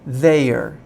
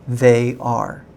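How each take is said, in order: First: It is squeezed into one short reduced syllable. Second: It is said as two full, separate words. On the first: "it's shorter, it's faster, and it's different" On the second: "the full words"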